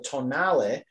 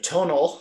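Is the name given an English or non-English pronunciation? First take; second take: non-English; English. First: The name is given a non-English pronunciation. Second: The name is given an English pronunciation.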